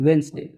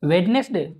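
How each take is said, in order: First: Two syllables are said, with the middle d silent. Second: Three syllables are said, with the middle d sounded. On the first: The speaker calls it right. "वेंसडे, not वेडनेसडे" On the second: The speaker calls it wrong. "ये वेडनेसडे ना हो के"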